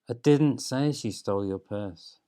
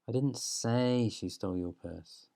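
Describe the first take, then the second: First: The stress falls on the word 'didn't'. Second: The stress falls on the word 'say'.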